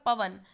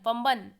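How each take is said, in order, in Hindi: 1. यह शब्द बिना किसी नासिका ध्वनि के बोला जाता है। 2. यह शब्द अनुनासिक स्वर के साथ बोला जाता है। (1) "ये सही है" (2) "पंबन मतलब नाक से, नासिका से बोल रहा है"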